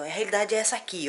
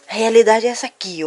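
First: Said in the usual way. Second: Realidade said louder, stressed; louder repeat of the point. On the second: Shown as a demonstration. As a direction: punch the word realidade.

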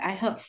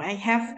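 First: "have" reduced to "həv"; short neutral vowel in "have"; weak form. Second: "have" with a full open "e/a" vowel; full-vowel "hav", as the form to avoid. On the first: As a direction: say "I have" with a schwa in "have". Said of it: "đọc dạng yếu của nó". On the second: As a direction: say "I have" with "have" unreduced. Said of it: "Chúng phải đọc I have". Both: Shown as a demonstration.

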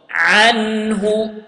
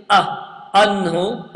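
First: Anhu opened with a throaty ayn; correct ayn. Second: Anhu with a light glottal hamza, not ayn; wrong hamza. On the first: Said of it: "It is ayn". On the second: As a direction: say anhu with a plain hamza start. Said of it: "I didn't say". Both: Shown as a demonstration.

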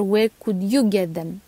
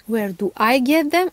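First: Contrastive stress on "you". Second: Contrastive stress on "I". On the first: Vlogger turning the question back to the viewer, stress on "you". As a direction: lean on "you" to set it against "I". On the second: Vlogger picking apart a viewer's question, stress on "I". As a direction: lean on "I" to set it against "you". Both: Real, not acted. Corrects who the question is about.

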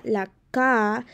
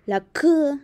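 First: Said in the usual way. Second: Higher K as a letter sound, kuh; "la K" with K said as a popped kuh; accented K. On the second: Shown as a demonstration. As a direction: demonstrate K as kuh, not ka. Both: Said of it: "porque tiene un acento también".

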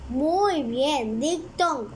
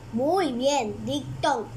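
No difference in how they are said.

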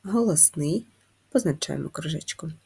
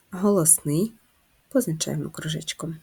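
The two takes are said the same way.

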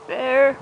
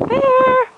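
First: Said in the usual way. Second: Loud, high-pitched holler; calling the dog. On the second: Real, not acted. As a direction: shout the pet's name across the yard. Calls her dog from afar.

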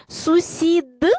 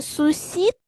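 First: "Сусід" higher and louder, d released with voice; voiced ending. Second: "сусід" higher, ending in a released voiceless t. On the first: Teacher offers pupils the first spelling choice, voiced ending. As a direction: say "Сусід" with a hard, clearly voiced final d. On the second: Teacher offers pupils the other spelling choice, voiceless ending. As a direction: say "сусід" with the final d turned into t. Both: Shown as a demonstration. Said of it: "вставивши правильні букви".

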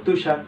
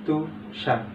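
First: Said in the usual way. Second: Tushar softly in two beats, "তু", pause, "ষার"; split into syllables. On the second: Shown as a demonstration. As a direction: break Tushar after its first syllable, softer. (তুষার নিচু গলায় দুই ভাগে থেমে উচ্চারণ) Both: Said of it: "ঠিক একই রকম".

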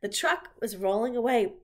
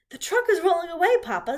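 First: Said in the usual way. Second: High, loud call of alarm; urgent child's shout, pitched way up; alarmed girl. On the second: A narrator's reading. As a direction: call out a warning to Papa. Fern warns her father, redone in character.

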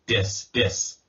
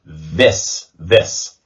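First: "dis" with a hard D, tongue on the roof of the mouth; wrong D sound. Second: "This" with the tongue between the teeth, buzzing th; tongue past the teeth for "This", voiced and buzzing; correct voiced th. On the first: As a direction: say "dis" as the mistake, a plain D. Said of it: "that is a D sound". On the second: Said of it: "You hear that little resonance there?". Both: Shown as a demonstration.

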